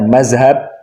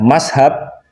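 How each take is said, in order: First: The middle consonant is a 'z' sound. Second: The middle consonant is an 's' sound. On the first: The speaker is not from the pesantren tradition. "Tapi kalau mengucapkannya mazhab, itu bukan santri" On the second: The speaker is far from the pesantren tradition. "Kalau mengucapkannya mashab, itu jauh dari tradisi santri"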